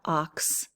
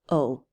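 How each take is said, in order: First: It has a short o and a final ks. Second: It has a long o and no final consonant. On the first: The speaker calls it wrong. "It's not ox" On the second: The speaker calls it right. "It's just O, because these are silent"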